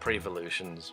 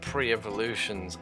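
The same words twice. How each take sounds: First: The prefix runs straight into the rest. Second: The prefix is separated from the rest. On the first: "I just say pre-evolutions, one word" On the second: "I don't say pre-evolutions"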